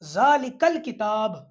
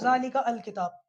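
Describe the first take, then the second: First: The 'al' joins onto the previous word. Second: The 'al' starts fresh with its own vowel. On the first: The speaker calls it right. "इसको पढ़ेंगे अब हम ज़ालिकल किताब" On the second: The speaker calls it wrong. "अब कोई भी इसको ऐसे नहीं पढ़ेगा"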